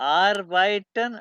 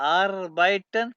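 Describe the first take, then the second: Both takes have the same delivery.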